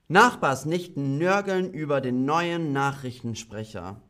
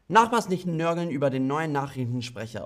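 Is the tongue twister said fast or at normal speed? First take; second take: normal; fast. First: It is said at a normal, unhurried speed. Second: It is said very fast.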